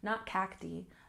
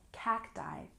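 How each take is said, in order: First: The final vowel is not a long I. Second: The final vowel is a long I. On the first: The speaker calls it wrong. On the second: The speaker calls it right. "have the long I sound"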